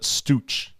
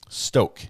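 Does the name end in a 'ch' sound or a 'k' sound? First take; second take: ch sound; k sound. First: The name ends with a ch sound. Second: The name ends with a k sound. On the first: The speaker calls it wrong. "I would pronounce it Stooch" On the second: The speaker calls it right. "Pronounce Stoke"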